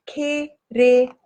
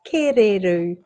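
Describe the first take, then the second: First: Kereru drawn out in three separate syllables. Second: Said in the usual way. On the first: Shown as a demonstration. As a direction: sound out "Kereru" slowly, syllable by syllable. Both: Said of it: "or wood pigeon".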